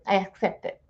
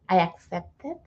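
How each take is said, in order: First: It is said in a dismissive, offhand tone. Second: It is said in a sincere, heartfelt tone. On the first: The acceptance is only words, not felt. The speaker calls it wrong. "You're just saying it with words" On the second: The acceptance is truly felt. The speaker calls it right. "you are saying it with sincerity"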